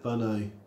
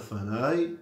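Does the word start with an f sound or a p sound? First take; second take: p; f. First: The word begins with a hard p sound. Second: The word begins with a soft f sound. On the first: The speaker calls it wrong. "ולא אולי ישא פניי" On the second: The speaker calls it right. "ואומרים אולי ישא פניי"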